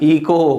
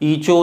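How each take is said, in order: First: The middle consonant is a k sound. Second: The middle consonant is a ch sound. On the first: The speaker calls it right. "सी का sound होगा" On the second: The speaker calls it wrong. "एच का ईचो नहीं होगा"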